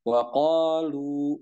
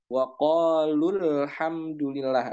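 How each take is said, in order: First: The final vowel is held long before a stop. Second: The final vowel is short, joined to the next word. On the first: The reader stops at this word. "maka dia dibaca dua harokat" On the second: The reader continues without stopping. "Lu-nya tidak lagi dibaca panjang ketika dia disambung"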